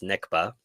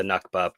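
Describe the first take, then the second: First: Nikba with a short front vowel first; corrected pronunciation. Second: Nakba with an open "ah" in the first syllable; habitual pronunciation. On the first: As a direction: say Nikba as "NIK-ba", not "NAHK-ba". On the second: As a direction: say Nakba as "NAHK-ba". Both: Shown as a demonstration. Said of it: "properly pronounced Nikba".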